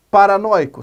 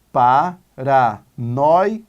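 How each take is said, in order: First: Said in the usual way. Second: "Paranoico" very slow, each syllable held apart; separated into syllables. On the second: Shown as a demonstration. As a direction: sound out "Paranoico" as pa, ra, noi, co. ("Paranoico" bem devagar, separando as sílabas) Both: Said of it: "Vamos separar em sílabas".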